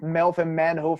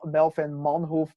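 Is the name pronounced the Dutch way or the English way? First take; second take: English; Dutch. First: The name is said with English-style pronunciation. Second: The name is said with Dutch pronunciation. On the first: The speaker calls it wrong. "so many people always say" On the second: The speaker calls it right. "It's Ma-"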